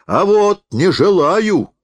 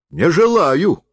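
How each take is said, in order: First: High, loud and slow; a defiant cry, much louder and higher; shouted refusal. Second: High, curt refusal; refuses, pitched high. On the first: Refuses again, more forcefully. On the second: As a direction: shut him down. Refuses the forester. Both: A narrator's reading.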